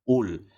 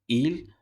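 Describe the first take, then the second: First: The word starts with a u vowel. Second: The word starts with an i vowel. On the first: "sebutan berbaris hadapan" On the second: "tidak boleh disebut dengan sebutan berbaris bawah"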